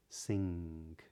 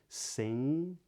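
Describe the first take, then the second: First: The word ends with a K-like sound. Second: The word ends without a hard G sound. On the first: "something a bit more like a K at the end" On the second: "they do not pronounce a hard G at the ends of these words"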